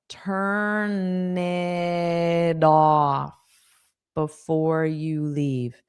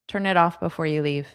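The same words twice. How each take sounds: First: The phrase is spoken slowly and carefully. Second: The phrase is spoken quickly and smoothly. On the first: "Now let's say it's slow" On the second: "So that was fast"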